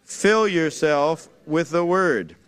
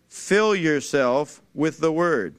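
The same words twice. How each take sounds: First: Same slow call-out, leaning on Fill; slow emphatic repeat. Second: Preacher's slow call-out of Fill yourself with the Word; slow emphatic phrase. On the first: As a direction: Fill stressed again, words drawn out slowly. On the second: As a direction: Fill punched, each word spaced out slowly. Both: Shown as a demonstration. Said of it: "Say it".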